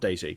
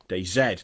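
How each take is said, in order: First: The name ends with a 'zee' sound. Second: The name ends with a 'zed' sound. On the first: The speaker calls it wrong. "not Daisy" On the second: The speaker calls it right. "DayZ, not Daisy"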